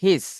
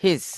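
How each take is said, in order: First: It is said as one contracted syllable. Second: It is said as one contracted syllable.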